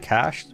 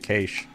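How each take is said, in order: First: The word is said the non-Australian way. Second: The word is said the Australian way. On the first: "we don't say cached" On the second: "in Australia, we say cache"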